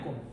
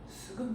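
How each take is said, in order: First: It begins with a single tense k sound. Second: It begins with s, a vowel, then k. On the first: The speaker calls it right. "꿈이야, 꿈. ... 그냥 뒤에 걸로 된소리 이렇게 읽으면 돼요" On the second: The speaker calls it wrong. "괜히 두 개 다 읽어야 되나 보다 해서 스금"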